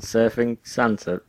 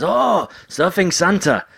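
First: Puzzled echo. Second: High, slow mock delight; drawn out like a thrilled fan. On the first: Retold or imitated. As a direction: repeat it back slowly, confused. Comedian's puzzled reply. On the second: Japanese person answering comedian.

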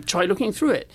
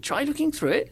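First: Said in the usual way. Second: Lightly voiced, puzzled Cleese, rising high; puzzled repeat. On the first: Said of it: "I said a line that wasn't in the show". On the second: John Cleese echoes the made-up line, mildly baffled. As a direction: echo the words back, baffled. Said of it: "and then he went".

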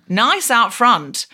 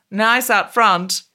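First: Slow, loaded nice; suggestive drawl. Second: Slow, loaded nice; slow innuendo. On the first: Retold or imitated. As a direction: lean on nice with innuendo. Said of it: "she said". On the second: Shown as a demonstration. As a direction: lean on nice suggestively.

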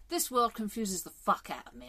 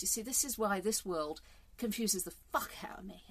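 First: "fuck" hit hard, the whole line pushed; emphatic swearing. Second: Said in the usual way. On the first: Shown as a demonstration. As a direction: lean into "This world confuses the fuck out of me" for emphasis. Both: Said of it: "I'll use it for emphasis".

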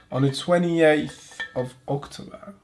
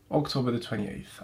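First: On the twenty-eighth of October, slow with a rise on twenty-eighth; on the twenty-eighth of October, spoken slow and questioning; date said slowly. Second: October the twenty-eighth, falling to a settled end; October the twenty-eighth, dropping at the end; English date order. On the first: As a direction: read the date out carefully, rising at twenty-eighth. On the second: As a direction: say October first, then the twenty-eighth, flatly. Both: Shown as a demonstration. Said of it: "The way you say date in English is annoying".

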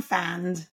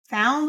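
First: "fanned", ow reduced to its first vowel; simplified diphthong. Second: Said in the usual way. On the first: Shown as a demonstration. Therapist showing a child's error, diphthong flattened in "fanned". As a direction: drop the oo glide, saying "fanned". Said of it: "They simplify it to the first vowel". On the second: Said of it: "Found will become fanned".

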